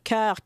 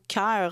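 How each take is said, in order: First: The vowel is plain, without a diphthong. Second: The vowel glides as a diphthong. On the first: "il y a moins de diphtongues" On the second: "qu'on va dire plutôt cœur en français québécois"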